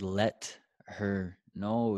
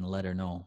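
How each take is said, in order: First: The words are said slowly and separately. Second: The words are run together quickly. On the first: "is a lot slower" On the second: "and that's what gringos say"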